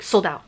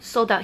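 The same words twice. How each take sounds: First: It sounds condescending, as if to a slow listener. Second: It sounds short and blunt. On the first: The listener is treated as unable to understand. "basically talking to you like you're an idiot that doesn't understand" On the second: The seller simply states the fact. "or he's just like, no"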